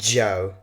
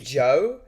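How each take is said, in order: First: The first consonant is strongly emphasized. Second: The first consonant is said plainly. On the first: "more of a stressed uh, J" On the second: "it's like saying Joe"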